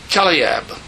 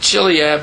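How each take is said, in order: First: The name begins with a hard K sound. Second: The name does not begin with a K sound. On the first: The speaker calls it right. "It's pronounced with a K" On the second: The speaker calls it wrong. "pronouncing it Chileab is not right"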